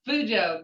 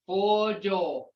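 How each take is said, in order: First: The first syllable sounds like 'fu'. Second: The first syllable sounds like 'fo'. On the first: The speaker calls it wrong. "that ain't a word in Muskogee" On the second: The speaker calls it right. "It's Fojo. Fo"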